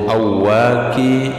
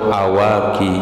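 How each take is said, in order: First: The final y sound is doubled. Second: The final y sound is single.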